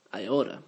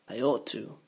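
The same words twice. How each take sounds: First: "oughta" as one soft word; contracted oughta. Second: Said in the usual way. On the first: Shown as a demonstration. Teacher showing the native contraction, swallowed. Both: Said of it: "the words get swallowed and contracted".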